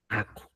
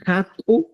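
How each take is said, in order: First: "aku" dropped low and soft, no H; pronounced without H. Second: "Haku" raised, with aspirated H; pronounced with initial H. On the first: Teacher giving the simpler option, "aku" without H. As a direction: say simply "aku", lower, starting on A. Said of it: "o simplemente". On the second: Teacher asking how we say it, "Haku" with H. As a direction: sound the H in "Haku", pitch up. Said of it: "¿cómo decimos?". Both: Shown as a demonstration.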